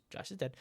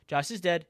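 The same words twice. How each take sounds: First: Quiet. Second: Said in the usual way. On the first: Real, not acted. Breaking the news, first try.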